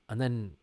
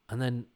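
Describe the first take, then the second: No difference in how they are said.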